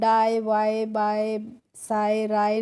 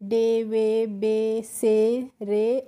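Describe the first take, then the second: First: Each word ends in an 'eye' sound. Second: Each word ends in an 'ay' sound. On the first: The speaker calls it wrong. "नहीं पढ़ेंगे" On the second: The speaker calls it right. "इनको हमें डे वे बे से रे और ले करके पढ़ना है"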